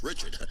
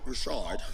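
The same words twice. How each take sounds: First: The name is said with an English pronunciation. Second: The name is said with a French pronunciation. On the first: The name is given its ordinary form. The speaker calls it right. "It's Richard" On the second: The name is given a fancy foreign form. The speaker calls it wrong. "I hate calling her that"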